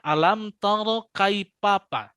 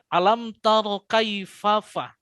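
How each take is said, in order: First: The last word uses a p sound. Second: The last word uses an f sound. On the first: The speaker calls it wrong. "Kalau pa, berarti gigi seri atas ini tidak disentuhkan" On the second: The speaker calls it right. "gigi seri atas harus menyentuh di bibir bagian bawah yang dalam"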